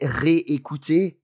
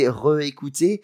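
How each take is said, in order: First: The first vowel is a clear 'ay' sound. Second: The first vowel is a weak 'uh' sound. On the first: The speaker calls it right. "But you would say réécouter" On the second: The speaker calls it wrong. "You wouldn't say réécouter"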